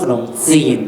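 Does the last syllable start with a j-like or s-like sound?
s-like. The last syllable starts with an s-like sound. This is how a kathoey says it. "แต่ถ้ากระเทยอ่ะมันจะขนมซีน"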